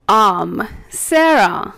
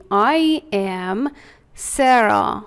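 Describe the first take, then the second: First: Slow "I'm Sarah", I and am glued into one syllable; fuse "I'm" into one drawn-out word; contracted. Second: "I am Sarah" with I and am separate; full "I am", then a pause before "Sarah"; uncontracted. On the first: Teacher now joining the words together, linked "I'm". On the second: Teacher giving the full form to repeat, separated "I am". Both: Shown as a demonstration. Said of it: "حالا میچسبونیم به هم".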